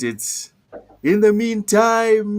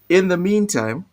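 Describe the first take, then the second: First: It is said in the speaker's local accent. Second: It is said in a plain standard accent.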